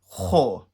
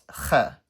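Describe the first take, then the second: First: The letter is said heavy, with a full mouth. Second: The letter is said light, without a full mouth. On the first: The speaker calls it right. "the child is expected to say kha" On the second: The speaker calls it wrong. "and not kha"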